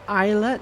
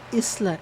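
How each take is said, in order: First: The s is silent, like in isle. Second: The s sound is pronounced in the word. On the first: This is the speaker's own pronunciation. "Is it not just islet because I S L E is isle?" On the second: This is how someone else said it. "The narrator said islet"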